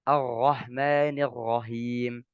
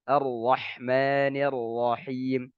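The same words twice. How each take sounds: First: The r sounds throaty, like a ghain. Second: The r is a clear tongue r. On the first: The speaker calls it wrong. "diganti dengan huruf ghain" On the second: The speaker calls it right. "Harus jelas"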